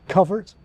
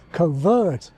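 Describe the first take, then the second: First: The second syllable has a weak, reduced vowel. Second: The second syllable has a long 'er' vowel. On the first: This is the older pronunciation. "The older pronunciation had a weak second syllable" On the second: This is the modern pronunciation. "the modern pronunciation has the long nurse vowel"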